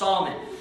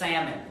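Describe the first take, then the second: First: The l sound is clearly pronounced. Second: The l sound is silent. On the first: This is the personal name. The speaker calls it right. "It's Salmon is how it's pronounced" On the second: This is the word for the fish. The speaker calls it wrong. "this is not like the fish"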